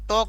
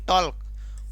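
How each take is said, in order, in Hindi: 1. L ध्वनि मूक है। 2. L ध्वनि बोली जाती है। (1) "टी ए एल के टॉक बनता है" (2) "न कि टॉल्क"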